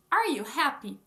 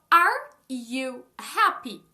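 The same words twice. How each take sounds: First: Said in the usual way. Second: Very slow and loud, each word separate; word-by-word demo. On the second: Shown as a demonstration. Teacher showing learners the inverted question, slow word-by-word. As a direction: spell out the question word by word, loudly.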